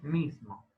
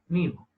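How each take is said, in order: First: The s sound in the middle is pronounced. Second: The s sound in the middle is left out.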